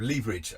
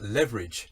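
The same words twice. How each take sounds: First: It is said with a British-style pronunciation. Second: It is said with an American-style pronunciation. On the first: It is the traditional local form. The speaker calls it right. "instead of leverage" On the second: It is the imported form heard from a broadcaster. The speaker calls it wrong. "I did hear a B B C correspondent talk about leverage"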